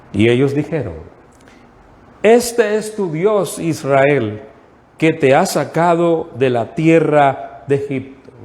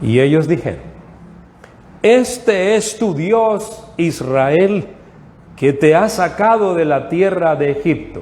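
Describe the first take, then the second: The two takes are said the same way.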